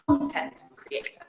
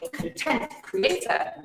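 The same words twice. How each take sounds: First: The stress in 'content' is on the first syllable. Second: The stress in 'content' is on the second syllable. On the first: Someone who makes material for websites or books. The speaker calls it right. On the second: Someone who makes things and is happy. The speaker calls it wrong.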